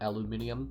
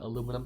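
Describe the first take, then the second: First: The word is said the non-Canadian way. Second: The word is said the Canadian way. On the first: "not aluminium" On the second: "If you were Canadian like myself, you pronounce it aluminum"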